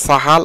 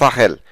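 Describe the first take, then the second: First: The second vowel sounds like 'a'. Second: The second vowel sounds like 'e'. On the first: The speaker calls it wrong. "অনেকে বলে সাহাল" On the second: The speaker calls it right. "সঠিক হচ্ছে সাহেল"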